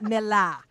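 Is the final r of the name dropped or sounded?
dropped. The name ends without an r sound. The speaker calls it wrong. "Hey, Boston, ... not Milla"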